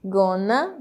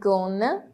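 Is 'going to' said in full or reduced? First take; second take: reduced; reduced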